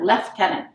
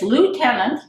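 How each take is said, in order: First: Lieutenant is said the non-American way. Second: Lieutenant is said the American way. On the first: This is the local usage. The speaker calls it right. "because it's the French term" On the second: This is the usage in the States. The speaker calls it wrong. "it's lieutenant in the States"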